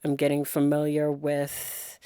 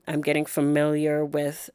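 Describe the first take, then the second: No difference in how they are said.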